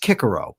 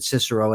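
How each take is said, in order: First: The first C sounds like a K. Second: The first C sounds like an S. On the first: The speaker calls it right. "correctly as Cicero" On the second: The speaker calls it wrong. "I didn't pronounce it correctly"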